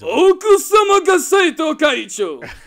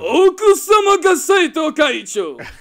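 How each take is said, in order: First: It is said in a loud, showy announcer voice. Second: It is said in a loud, showy announcer voice.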